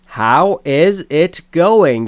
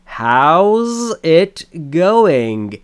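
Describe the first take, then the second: First: The word is is said in full. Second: The word is is shortened to an s sound.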